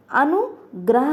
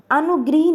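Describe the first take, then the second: First: अनुग्रह said slowly with ग्र, as anu-gra-h; teacher stresses the right अनुग्रह, gra not gri, slow; correct form, slowly. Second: अनुगृह said with the vowel ऋ, as anugrih; teacher voices the wrong form अनुगृह, anu-grih; wrong spelling shown. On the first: Teacher to students giving the correct form, slow and deliberate. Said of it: "अनुग्रह होता है". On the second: Teacher to students showing the mistake, anugrih said clearly. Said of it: "अनुगृह नहीं होता". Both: Shown as a demonstration.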